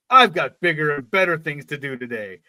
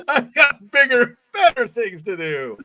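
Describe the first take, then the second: First: Said in the usual way. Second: High, loud mock proclamation; over-the-top, high-pitched declaration; hammed-up boast. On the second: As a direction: crow it in mock self-importance. Hammed-up repeat of the quote, joking.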